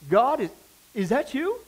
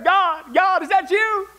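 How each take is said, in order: First: It is said hesitantly and a little nervously. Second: It is yelled out in terror.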